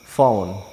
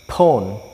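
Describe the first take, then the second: First: It begins with a soft, unexploded f-like sound. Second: It begins with an exploded p sound. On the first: The speaker calls it right. "kita membacanya phone" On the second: The speaker calls it wrong. "Jadi kita tidak membacanya phone"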